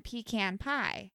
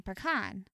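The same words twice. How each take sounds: First: Pecan as PEE-can in pecan pie; pie-style pecan. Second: Pecan as puh-KAHN; ice-cream pecan. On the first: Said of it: "You're saying pecan pie". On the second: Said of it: "then you're saying pecan". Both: Shown as a demonstration.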